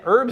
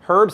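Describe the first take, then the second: First: The word starts without an h sound. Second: The word starts with a clear h sound. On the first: This is the ordinary, dull way to say it. "Herbs are like whatever" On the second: This is the fun, more sophisticated way to say it. "Herbs I really like to say"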